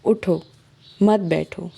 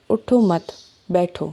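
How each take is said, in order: First: "اٹھو" then a pause, "مت بیٹھو" run together; pause after اٹھو. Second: "اٹھو مت" then a pause, then "بیٹھو"; pause after مت. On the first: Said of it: "ان میں ہم سانس غلط جگہ لے لیں". ("اٹھو" کے بعد وقفہ، "مت بیٹھو" ملا کر) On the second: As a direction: stop after "مت" before saying "بیٹھو". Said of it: "جیسے ہم اردو میں کہتے ہیں". ("مت" کے بعد وقفہ، پھر "بیٹھو") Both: Shown as a demonstration.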